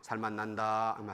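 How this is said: It sounds flat and joyless. Life does not feel worth living. The speaker calls it wrong. "살맛이 안 나요"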